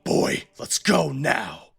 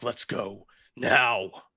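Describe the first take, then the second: First: Slow, heavy command from a cruel father; slow menacing father. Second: Slow, drawn-out threat; slow menacing father. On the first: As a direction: drag it out like a threat. Father orders boy in game scene. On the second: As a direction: say it slowly like a cruel father. Father repeats order, same scene. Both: Acted.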